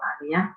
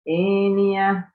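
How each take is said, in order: First: The first vowel is a plain open 'a'. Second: The first vowel is tilted toward 'e'. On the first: This is the reading without imalah. "Kalau Aniyah Hisham" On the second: This is the reading with imalah. "Imalah yang diimalahkan yang mana? E"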